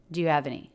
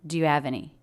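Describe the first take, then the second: No difference in how they are said.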